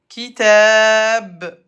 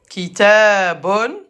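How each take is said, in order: First: The word stops on a bare b sound. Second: The word ends with an -un sound. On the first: The speaker stops at the end of the sentence. "à l'arrêt, le ba se prononce comme ba avec soukoun" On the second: The word is read in the middle of speech.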